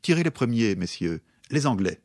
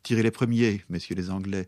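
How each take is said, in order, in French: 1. La pause se trouve ailleurs, pas après 'premiers'. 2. La pause se trouve juste après 'premiers'. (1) "Si on déplace la virgule" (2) "au lieu de dire"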